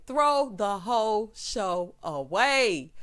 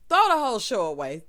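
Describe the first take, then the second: First: Word by word, drawn out; very slow, each word separately weighted; slow emphatic repeat. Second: Loud exclaimed dismissal; loud, exasperated verdict; emphatic dismissal. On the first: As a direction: spell out the dismissal slowly. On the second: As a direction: toss it out loud, in one breath. Same line, then drawn out slower. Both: Real, not acted.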